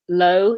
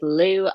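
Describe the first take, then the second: First: The vowel sounds like 'oh' in 'go'. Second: The vowel sounds like 'oo' in 'blue'. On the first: The speaker calls it right. "That sounds more accurate than Lou" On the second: The speaker calls it wrong. "I don't think it's pronounced like that"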